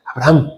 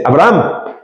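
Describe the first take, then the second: First: Said in the usual way. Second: Strong call. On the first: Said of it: "no le dice". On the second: Shown as a demonstration. Teacher showing God calling Abraham strongly, a firm call. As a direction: call "Abraham" with weight, like an exclamation. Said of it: "Dios le habla fuerte".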